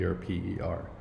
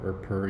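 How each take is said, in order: First: It is spelled out letter by letter. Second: It is said as one word. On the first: The speaker calls it right. "You need to say" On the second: The speaker calls it wrong. "do not say"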